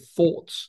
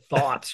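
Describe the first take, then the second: First: It is said with a British accent. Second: It is said with an American accent.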